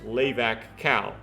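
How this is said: It is pronounced with English-style vowels.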